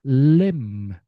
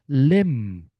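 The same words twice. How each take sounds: No difference in how they are said.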